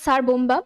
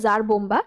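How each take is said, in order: First: The first word begins with an s sound. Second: The first word begins with a z sound. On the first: The speaker calls it wrong. "এটা মানে স্যার না" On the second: The speaker calls it right. "উচ্চারণটা basically জার"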